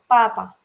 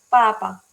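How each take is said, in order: No difference in how they are said.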